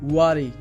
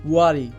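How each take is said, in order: First: The first vowel sounds like 'uh' after w. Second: The first vowel sounds like 'uh' after w.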